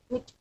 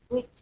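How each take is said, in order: Both takes have the same delivery.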